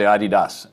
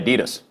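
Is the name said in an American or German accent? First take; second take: German; American. First: It is said in a German accent. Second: It is said in an American accent.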